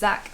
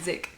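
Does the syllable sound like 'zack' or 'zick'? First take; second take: zack; zick. First: The syllable is said with an 'a' vowel. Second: The syllable is said with an 'i' vowel. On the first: "It's Zak" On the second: "but it's actually Zik"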